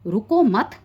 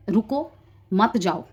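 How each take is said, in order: First: "रुको मत" run together with a stop after "मत"; "रुको मत" as one unit, louder; pause after मत. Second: "रुको" then a clear break, then "मत जाओ" together; pause after रुको. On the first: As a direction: join "रुको मत", then stop. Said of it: "full stop". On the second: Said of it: "उसके आगे full stop लगा दो". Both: Shown as a demonstration.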